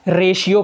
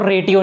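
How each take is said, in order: First: The middle consonant is a 'sh' sound. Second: The middle consonant is a 't' sound. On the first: The speaker calls it right. "रेशियो कहते हैं" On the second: The speaker calls it wrong. "R A टी I ओ को रेटियो नहीं कहते"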